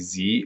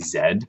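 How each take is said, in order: First: The letter is said the American way. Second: The letter is said the Canadian way. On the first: "Americans say Z" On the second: "but Canadians say Z"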